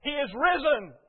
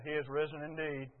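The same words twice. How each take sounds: First: Higher, louder Easter proclamation; bright-eyed, raised-voice announcement; wife's morning greeting. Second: Low, soft, unenthusiastic response; subdued automatic answer; half-asleep reply. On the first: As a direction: sing out the good news as you pass. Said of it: "she walked past me and she said". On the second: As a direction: mumble it back with an early-morning headache. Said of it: "We're kind of asleep at the switch". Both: Retold or imitated.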